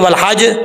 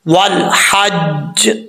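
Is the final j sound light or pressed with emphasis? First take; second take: light; pressed. First: The final j is released lightly without emphasis. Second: The final j is pressed and held with emphasis. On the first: The speaker calls it wrong. "अगर हम इसको पढ़ेंगे वल हज तो ये गलत है।" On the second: The speaker calls it right. "जीम के ऊपर दबा के पढ़ेंगे। कैसे?"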